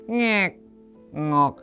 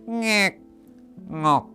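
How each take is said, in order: Both takes have the same delivery.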